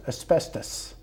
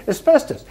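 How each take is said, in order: First: Asbestos breathed out in a whisper; whispered punchline asbestos; hushed reveal. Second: Asbestos, much higher and louder with a rising tune; raised, rising asbestos; incredulous repeat. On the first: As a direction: drop to a whisper on asbestos, like a dark secret. Punchline about filter material. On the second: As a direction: throw asbestos up high in disbelief. Repeats punchline in disbelief. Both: Retold or imitated.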